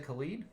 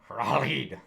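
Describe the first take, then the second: First: The name begins with a hard K sound. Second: The name begins without a hard K sound. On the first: "does it not have a K? It does have a K" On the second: "So it's Ralid?"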